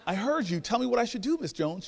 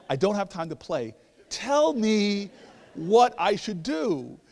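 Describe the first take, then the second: First: High, exasperated plea; impatient. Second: High, loud demand, slowing word by word; exasperated. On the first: Man pressing elder neighbor for her advice, impatient. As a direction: push her for the answer, voice rising. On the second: Man demanding the answer from teasing neighbor, exasperated. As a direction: hammer out each word, out of patience. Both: Retold or imitated.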